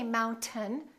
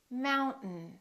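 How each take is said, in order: First: The T is released with a vowel before N. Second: The T goes straight into a nasal N. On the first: The speaker calls it wrong. "Don't say mountain, don't release your tongue" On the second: The speaker calls it right. "Keep it up and just go directly to the N"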